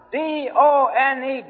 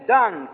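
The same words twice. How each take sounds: First: D O N E spelled letter by letter, slow and weighty. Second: Said in the usual way. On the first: Shown as a demonstration. Preacher driving home that the work is finished, spelling D O N E slowly. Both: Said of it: "spells out D O N E".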